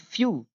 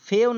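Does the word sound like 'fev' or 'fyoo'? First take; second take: fyoo; fev. First: It is said like 'fyoo', ending in a vowel. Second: It is said like 'fev', ending in a v. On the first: The speaker calls it right. "नहीं फ्यू" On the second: The speaker calls it wrong. "फेव नहीं"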